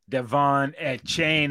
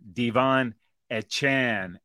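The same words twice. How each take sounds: First: The surname does not end in a 'chan' sound. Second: The surname ends in a 'chan' sound. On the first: The speaker calls it wrong. "I was going to call him Devon Achane" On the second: The speaker calls it right. "he let us know that it's Chan"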